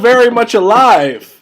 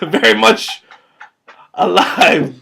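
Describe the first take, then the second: First: It is said in a plain, ordinary voice. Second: It is said in a put-on character voice.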